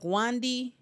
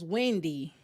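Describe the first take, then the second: First: The first vowel sounds like 'a' in 'want'. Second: The first vowel sounds like 'e' in 'bed'. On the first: This is how the name sounds in the original. "The name sound like Wandy to me" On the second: This is how the English dub says the name. "The the dubbing gonna pronounce it as Wendy"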